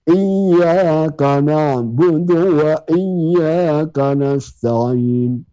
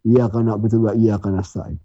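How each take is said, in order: First: It is said slowly and carefully. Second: It is said fast and rushed.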